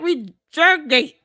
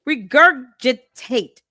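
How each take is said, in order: First: The word is said with only three syllables. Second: The word is said with four full syllables. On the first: The speaker calls it wrong. "She said regurgate" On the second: The speaker calls it right. "Why do you keep mispronouncing this word?"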